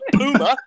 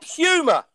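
First: The first vowel is a long oo sound. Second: The first vowel is not a plain oo sound. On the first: This is how others say it. The speaker calls it wrong. "not Puma. There's not fucking two O's in there" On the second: This is how English people say it. The speaker calls it right. "It's Puma"

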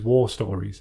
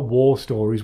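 First: War is said with a Geordie vowel. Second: War is said with a standard English vowel. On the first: The speaker calls it right. "war as in proper Geordie war" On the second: The speaker calls it wrong. "Not War Stories"

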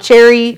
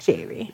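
First: The name starts with a 'ch' sound. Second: The name starts with an 'sh' sound. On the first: The speaker calls it wrong. "but it's spelled Cherry" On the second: The speaker calls it right. "she pronounces it Sherry"

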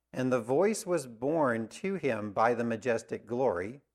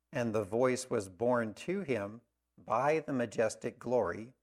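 Both takes have the same delivery.

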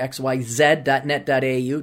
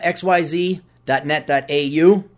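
First: It is said the Australian way, with zed. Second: It is said the American way.

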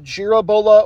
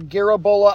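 First: It begins with a soft G sound. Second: It begins with a hard G sound. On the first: "the soft" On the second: "the hard G"

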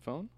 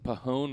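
First: The word starts with a plain F sound. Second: The P is sounded before a vowel. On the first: The speaker calls it right. "rather than phone" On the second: The speaker calls it wrong. "Is it Pahone"

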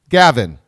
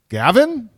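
First: It is said as a flat statement. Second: It is said as a rising question.

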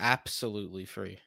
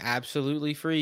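First: The first word starts with a stressed 'app' sound. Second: The first word starts with a plain 'ab' sound. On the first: It is a pun on the word app. The speaker calls it right. "It's an app" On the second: It is the ordinary word. The speaker calls it wrong. "instead of saying absolutely free"

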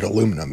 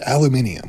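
First: It is said with four syllables, American style. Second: It is said with five syllables, British style. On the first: This is how Americans say it. "We're the only place in the world that pronounces it aluminum" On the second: This is how it is said elsewhere. "You pronounce it aluminium"

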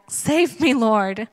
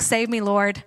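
First: It is shouted loudly. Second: It is said quietly, as plain reading.

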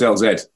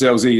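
First: The letter Z is said the British way. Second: The letter Z is said the American way. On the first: This is how it is said in England. "we came up with the English language, so it's LZ" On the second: This is how it is said in the States. "If you're in the States, it's LZ"

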